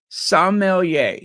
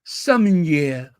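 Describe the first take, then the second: First: "Sommelier" said slowly as "som-mel-YAY"; English pronunciation. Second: "Sommelier" said slowly the French way, "sum-in-YEH"; French pronunciation. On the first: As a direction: land firmly on "Sommelier", ending in a clear "-yay". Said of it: "That's how you pronounce it". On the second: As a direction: imitate a French "Sommelier" with an open "-yeh" ending. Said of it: "That's how they say it in France". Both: Shown as a demonstration.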